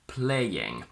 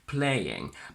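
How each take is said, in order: First: A small y sound links the two vowels. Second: The vowels join with no y sound between. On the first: "you can also add it in, like I do" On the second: "where you don't have to use an intrusive sound"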